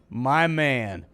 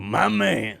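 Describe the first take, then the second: First: It is said in the speaker's ordinary voice. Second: It is said as an impression of another voice.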